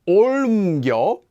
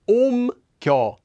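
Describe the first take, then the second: First: An L sound is heard before the M. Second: No L sound is heard before the M. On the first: The speaker calls it wrong. "Notice that it's not 옮겨" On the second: The speaker calls it right. "it's just 옮겨"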